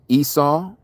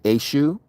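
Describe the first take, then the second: First: The name is said with an s sound. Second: The name is said with a sh sound.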